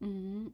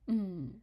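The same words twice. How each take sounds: First: It is said in Cantonese tone five. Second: It is said in Cantonese tone four. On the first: It means the number five. "putting tone five after it" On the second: It expresses negation. "putting tone four after it"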